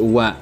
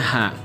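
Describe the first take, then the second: First: It begins with a w sound. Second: It begins with an h sound. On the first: The character is used as a particle. "karena di sini merupakan partikel dibacanya bukan ha tapi wa" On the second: The character is read on its own. "kalau dibaca secara dia berdiri sendiri artinya dibacanya ha"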